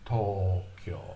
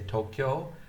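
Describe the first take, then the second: First: Both O vowels are drawn out long. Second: Both O vowels are short. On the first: The speaker calls it right. "in Japanese you have to say Tokyo" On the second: The speaker calls it wrong. "in English we say Tokyo"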